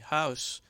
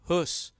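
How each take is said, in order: First: The vowel glides as the diphthong au. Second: The vowel is a single long close back u. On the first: This is the modern English form. "modern-day house, shifted to become the diphthong au" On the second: This is the older Middle English form. "the close back vowel U, as in hus"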